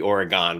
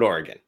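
First: The last syllable is a full 'gone'. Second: The last syllable is quick and reduced. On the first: The speaker calls it wrong. "if it was O-R-E-G-O-N-E, maybe Oregon would make sense" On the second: The speaker calls it right. "Just say it. Let it roll off your tongue real quick"

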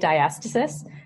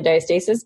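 First: It is the common American pronunciation. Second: It is the common Canadian pronunciation. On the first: "more Americans say diastasis" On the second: "Canadians say diastasis"

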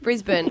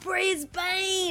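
First: The name is said in an Australian way. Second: The name is said in an American way. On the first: Locals say it this way. The speaker calls it right. "no, it's Brisbane. ... We just obviously pronounce it differently" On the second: Visiting performers say it this way. The speaker calls it wrong. "they come out and they go, "We love you, Brisbane.""

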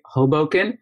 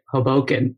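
First: The stress is on the first syllable. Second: The stress is on the second syllable. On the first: Most people say it this way. "I'd say two-thirds people say Hoboken" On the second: Some people say it this way. "some people choose to emphasize the second syllable and say Hoboken"

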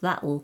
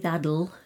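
First: The t is a glottal stop. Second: The t sounds like a soft d. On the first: "sometimes almost goes like the glottal sound" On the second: "the T changes sometimes to a bit of a D"

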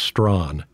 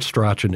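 First: The name is said as one syllable. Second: The name is said with two syllables. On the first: The speaker calls it right. "it's Strawn. You're mispronouncing the guy's name" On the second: The speaker calls it wrong. "It's not Strachan"

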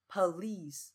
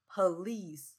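Both takes have the same delivery.

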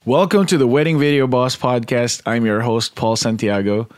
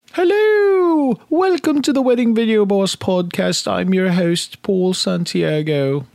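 First: It is said in his normal voice. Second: It is said in a Mrs. Doubtfire voice.

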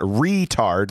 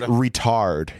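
First: The stress is on the first syllable. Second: The stress is on the second syllable. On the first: The speaker calls it wrong. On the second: The speaker calls it right. "It's on the A"

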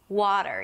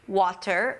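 First: The middle consonant is a soft D sound. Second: The middle consonant is a clear T sound. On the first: The speaker calls it right. "It actually sounds like a D" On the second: The speaker calls it wrong. "you won't hear water, although there is a T there"

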